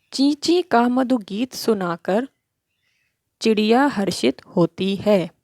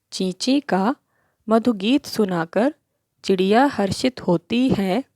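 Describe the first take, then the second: The two takes are said the same way.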